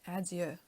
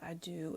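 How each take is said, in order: First: The word is said with a French pronunciation. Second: The word is said with an anglicized pronunciation. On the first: The speaker calls it right. "That's French. That's how you pronounce it" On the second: The speaker calls it wrong. "It's not adieu"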